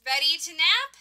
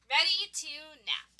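First: "Ready to nap" as a bright question, rising on "nap"; eager question with "nap" going up. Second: "Ready to nap" as a settled statement, falling on "nap"; relaxed reply with "nap" going down; answering. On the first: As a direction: ask it louder, lifting "nap" at the end. Asked, then answered in same words. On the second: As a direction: confirm it, dropping "nap" at the end. Answer echoing the question. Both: Acted.

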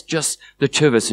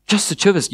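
First: Said in the usual way. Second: Higher-pitched questioning reply; surprised question. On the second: Acted. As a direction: ask it in mild surprise. Shame surprised by invitation.

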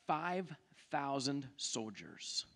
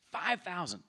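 First: "Five thousand soldiers" said slow and low, leaning on "Five"; emphatic. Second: Said in the usual way. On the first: Shown as a demonstration. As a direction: weigh "Five thousand" slowly.

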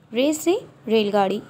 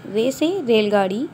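The two takes are said the same way.

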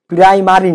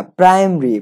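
First: প্রাইমারি with a full middle "ma"; mispronounced "prai-ma-ri". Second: প্রাইমারি with the middle vowel dropped; contracted "praim-ri". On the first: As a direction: say প্রাইমারি in three syllables, prai-ma-ri. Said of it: "প্রাইমারি না". (প্রাইমারি, মাঝে স্পষ্ট "মা" দিয়ে) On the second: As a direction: say প্রাইমারি as two syllables, praim-ri. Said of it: "আমরা এই উচ্চারণটা ভুল করি". (প্রাইমারি, "মা" না বলে "প্রাইম-রি") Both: Shown as a demonstration.

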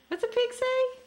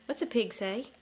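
First: Put-on much higher, sing-song question to a toddler; squeaky high baby-talk question; high playful voice. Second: Said in the usual way. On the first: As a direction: pitch it way up for the baby. Dad asks toddler animal sounds.

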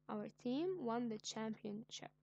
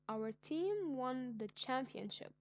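First: Said in the usual way. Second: Slow, louder, proud announcement; slowed, louder victory exclaim; excited announcement. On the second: Shown as a demonstration. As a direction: share the big win with real pride. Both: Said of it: "showing my excitement".

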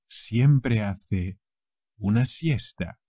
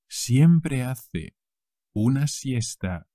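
The two takes are said the same way.

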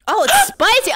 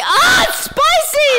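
First: Rising alarm at the heat; surprised. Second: Loud, slow, burning-mouth yell; pained shout. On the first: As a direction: realize it burns. Realizes soup is spicy. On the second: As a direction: shout as the heat hits. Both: Real, not acted.

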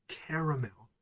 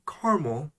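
First: Caramel in three syllables, CARE-uh-mel; careful pronunciation. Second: Caramel in two syllables, CAR-mul; own habitual pronunciation. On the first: Telling how it is pronounced, caramel as CARE-uh-mel. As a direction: say "caramel" fully, ending in a clear MEL. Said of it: "it is pronounced". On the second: Admitting how they grew up saying it, caramel as CAR-mul. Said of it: "I say caramel". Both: Shown as a demonstration.

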